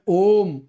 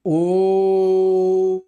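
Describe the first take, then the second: First: The O vowel is held for twice as long. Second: The O vowel is held about three times longer. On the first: "ये दीर्घ उच्चारण है।" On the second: "सही उच्चारण करेंगे तो होगा ओ, यानी ओ को दो से ज्यादा समय देना है"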